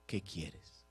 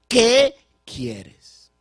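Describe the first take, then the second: First: Low, very soft, gentle question; Jesus asking softly. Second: Loud, high, ringing question; Jesus asking loudly. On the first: Jesus to the blind man, soft and low. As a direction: ask it quietly, almost to himself. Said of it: "Jesús le dice". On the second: Jesus to the blind man, loud and high. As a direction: call the question out boldly. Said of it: "Jesús le pregunta". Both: Acted.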